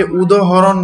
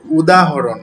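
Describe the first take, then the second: First: "উদাহরণ" said as udohoron, middle vowel o; common mispronunciation. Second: "উদাহরণ" as udahoron, with a clear aa; correct pronunciation. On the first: Teacher shows students a common slip, mispronounced "উদাহরণ" as udohoron. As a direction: say "উদাহরণ" with o in place of the long a. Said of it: "অনেকে উদাহরণ বলেন". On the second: Teacher corrects the common slip, careful "উদাহরণ" with open aa. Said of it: "উদাহরণ নয়". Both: Shown as a demonstration.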